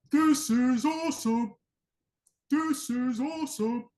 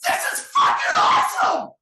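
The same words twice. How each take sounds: First: High, strained, drawn-out mock cheer with no full voice behind it; badly faked crowd excitement, slow and high; pretend hype. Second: Full-throttle raw scream, drawn out; explosive, very loud roar of hype; legit fired up. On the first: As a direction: act juiced without really letting go. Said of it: "people pretend to be juiced". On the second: Acted. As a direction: scream it like a truly juiced crowd. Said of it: "people are legit fired up".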